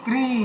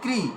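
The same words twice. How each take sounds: First: The vowel is drawn out and long. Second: The vowel is said short and quick. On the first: "আর দীর্ঘতে" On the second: "যখন হ্রস্বতে উচ্চারণ করছিলাম"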